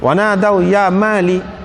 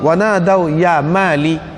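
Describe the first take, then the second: First: The name is cut short, ending on -li. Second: The same.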